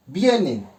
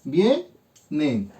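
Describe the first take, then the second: First: Said in the usual way. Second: "vienen" split as vie - nen, pausing between syllables; división silábica. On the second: Shown as a demonstration. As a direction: say "vienen" slowly in two separate beats: vie, nen. ("vienen" separado en sílabas: vie - nen) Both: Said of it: "Hago mi división silábica".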